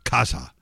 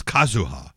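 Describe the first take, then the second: First: Kazha as two syllables, KAZ-ha; accent on first syllable. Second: Kazuha in three syllables, KA-zu-ha; full name with U. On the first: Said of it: "put the accent on the first syllable". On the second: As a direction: keep the U sounded in Kazuha. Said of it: "taking the U out of it". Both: Shown as a demonstration.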